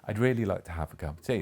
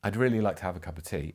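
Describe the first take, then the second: First: It thumps out a regular da-DUM beat. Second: It is spoken with a natural conversational rhythm.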